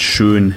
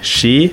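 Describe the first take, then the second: First: The vowel is a rounded ö. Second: The vowel is an unrounded e. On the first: "Das ö spricht man meist als e" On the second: "Das ö spricht man meist als e"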